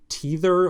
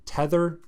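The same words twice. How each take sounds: First: "tether" with a long ee, like TEE-ther; long-e pronunciation. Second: "tether" with a short eh, like TETH-er; short-e pronunciation. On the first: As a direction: say the first vowel of "tether" as in "tea". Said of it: "I don't know which one it would be, how you would pronounce that". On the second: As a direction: say the first vowel of "tether" as in "ten". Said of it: "how you would pronounce that". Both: Shown as a demonstration.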